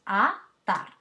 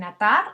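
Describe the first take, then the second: First: "a-tar" broken into two separate syllables, a, tar. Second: Said in the usual way. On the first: Shown as a demonstration. Teacher showing students the two syllables, "a-tar" split syllable by syllable. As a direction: say "a-tar" in two distinct, emphatic beats. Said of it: "En atar hay dos sílabas". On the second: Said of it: "hay dos sílabas".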